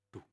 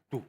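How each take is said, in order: First: The beats come at a calm, steady pace. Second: The beats come quickly and forcefully. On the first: The heart beats normally on its own. "Itu syaraf tak sadar" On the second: The heart races when meeting a loved one. "Kayak kencang"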